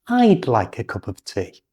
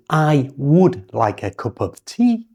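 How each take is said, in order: First: "I'd" as one syllable ending in d; contracted I'd. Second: "I would" with a full, unreduced would; full form I would. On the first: Teacher modelling the contracted I'd. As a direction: clip "I'd" down to a d sound. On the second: Teacher showing the long form before contracting. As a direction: say "I would" as two words. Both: Shown as a demonstration.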